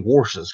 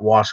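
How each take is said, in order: First: The word is said with an r sound. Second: The word is said without an r sound. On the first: "how she gets that R in there" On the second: "My sister does not wash clothes"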